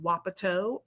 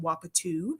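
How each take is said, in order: First: The word ends with an 'oh' vowel. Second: The word ends with an 'oo' vowel. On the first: "is called wapato" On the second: "sometimes people pronounce it wapatu, depending on where you are"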